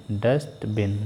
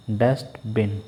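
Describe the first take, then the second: No difference in how they are said.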